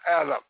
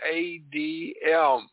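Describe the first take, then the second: First: The name is said with an English pronunciation. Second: The name is said with a Hebrew pronunciation. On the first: It is a later human reading as a personal name. The speaker calls it wrong. "not Adam, A-D-A-M, as a human interpretation" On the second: It is the original word, not a personal name. The speaker calls it right. "go back to the Hebrew language and you will find that God created Adam"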